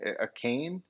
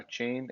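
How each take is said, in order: First: The name is said with a 'k' sound. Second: The name is said with a 'ch' sound. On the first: The speaker calls it right. "I've heard him say a cane" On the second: The speaker calls it wrong. "I thought it was Devon a chain"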